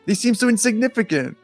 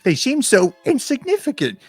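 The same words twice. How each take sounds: First: It is read in a normal speaking voice. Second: It is read in a high character voice.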